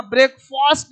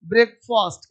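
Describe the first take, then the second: First: ब्रेकफास्ट with a long open "faast"; mispronounced ending. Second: ब्रेकफास्ट with a short, reduced "fust"; correct pronunciation. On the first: Teacher showing pupils what not to say, mispronounced with long "faast". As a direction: stretch the second vowel of ब्रेकफास्ट to "aa". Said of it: "यहां ब्रेकफास्ट नहीं बोलना है". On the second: Teacher modelling the word for pupils, short "fust" ending. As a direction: keep the second vowel of ब्रेकफास्ट short, like "uh". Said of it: "क्या बोलेंगे?". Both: Shown as a demonstration.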